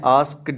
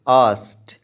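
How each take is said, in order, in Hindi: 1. k बोला जाता है और यह d पर खत्म होता है। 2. k साइलेंट है और यह t पर खत्म होता है। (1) "आस्क्ड नहीं कहना" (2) "के साइलेंट हो जाएगा और डी टी की साउंड देगी"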